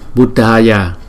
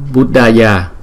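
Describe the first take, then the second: The two takes are said the same way.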